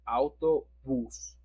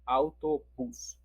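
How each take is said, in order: No difference in how they are said.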